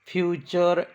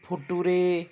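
First: The ending is said as 'cher'. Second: The ending is said as 'too-reh'. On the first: The speaker calls it right. "TUREला चर म्हणून" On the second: The speaker calls it wrong. "असं ना वाचता"

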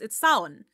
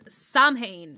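First: It is said with the traditional pronunciation. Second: It is said with an odd, nontraditional pronunciation. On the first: The speaker calls it right. "It's Samhain. It just is" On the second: The speaker calls it wrong. "movies or TV shows where they're like"

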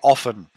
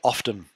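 First: It is said with an American pronunciation. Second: It is said with a British pronunciation. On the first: "my students that are going to America to say often" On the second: "those going to England, I say often"

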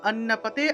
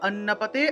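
The two takes are said the same way.

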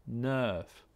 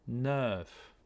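The two takes are said the same way.

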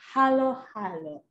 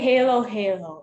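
First: It is said with a Filipino pronunciation. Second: It is said with an American English pronunciation. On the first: The speaker calls it right. "It's halo halo" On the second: The speaker calls it wrong. "Please don't say halo halo"

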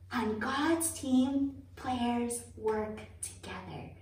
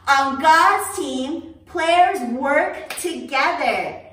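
First: It is said very quietly. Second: It is said very loudly.

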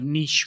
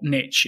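First: It is said with a British accent. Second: It is said with an American accent.

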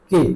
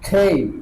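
First: The K is said without a puff of air. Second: The K is said with a strong puff of air. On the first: The speaker calls it wrong. "আমরা এটাকে বলতাম কি কে" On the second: The speaker calls it right. "কে না বলে কি বলবো খেই"

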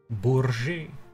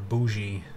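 First: It is said with an R sound. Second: It is said without an R sound. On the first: "because I always put an R in it" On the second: "Or bougie"

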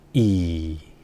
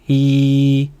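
First: The pitch starts low and dips lower. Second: The pitch stays high and level. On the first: "낮은 음에서 낮은 음으로 내려갑니다" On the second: "1성은 평평하게 발성하면 돼요"

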